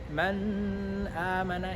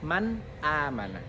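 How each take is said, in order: First: The n is drawn out with a nasal hum. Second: The n is clear, with no nasal hum. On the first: The speaker calls it wrong. "itu tidak bisa diterima" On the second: The speaker calls it right. "benar-benar izhar dan tidak boleh ada dengung"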